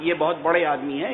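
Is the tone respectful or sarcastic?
respectful. It is said in a sincere, respectful tone. The person is truly important and deserves respect. "انہیں آپ چھوٹا نہ سمجھیے گا"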